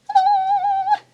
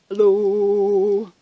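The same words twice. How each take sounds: First: It is said in a very high voice. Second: It is said in a very low voice.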